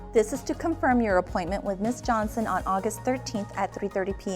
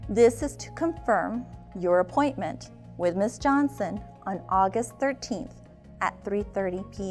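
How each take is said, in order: First: It is said fast. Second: It is said slowly.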